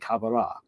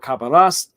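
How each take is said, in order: First: The final S sound is left silent. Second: The final S sound is clearly pronounced.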